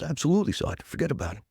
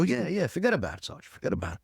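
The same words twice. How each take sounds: First: Put-on "Absolutely" pitched up, light New York accent. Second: A light New York "forget about it", higher, to a sergeant; New York accent. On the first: A recruit answers his sergeant in a light New York accent. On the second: Retold or imitated. To his sergeant, a hint of a New York accent. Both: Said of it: "Really talk like that?".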